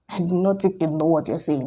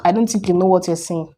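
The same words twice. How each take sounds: First: "not" stressed, the whole line much softer and lower. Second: Said in the usual way. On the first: Real, not acted. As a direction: lean on "not", drop the voice low and soft. Repeats it quieter and stressed.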